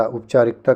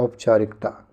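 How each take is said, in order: First: उपचारिकता begun with u instead of au; u opening. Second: Said in the usual way. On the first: Shown as a demonstration. Teacher questioning the wrong form, up- opening on उपचारिकता. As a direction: open उपचारिकता on up. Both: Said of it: "उपचारिकता क्या होता है".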